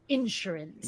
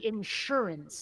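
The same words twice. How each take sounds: First: The stress is on the first syllable. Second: The stress is on the second syllable. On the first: The speaker calls it wrong. "not insurance" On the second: The speaker calls it right. "the word should be insurance"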